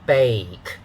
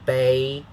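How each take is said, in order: First: The vowel glides like the one in day. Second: The vowel glides like the one in day.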